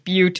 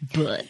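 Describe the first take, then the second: First: The word does not sound like 'but'. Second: The word sounds like the plain word 'but'. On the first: The speaker calls it right. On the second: The speaker calls it wrong.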